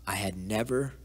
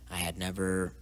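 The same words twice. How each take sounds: The two takes are said the same way.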